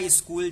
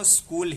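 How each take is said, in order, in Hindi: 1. शुरू के स से पहले एक छोटा अतिरिक्त स्वर आता है। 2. शब्द सीधे स के संयुक्त व्यंजन से शुरू होता है। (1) "भले बोला स्कूल जा रहा है" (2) "है तो वो स्कूल ही"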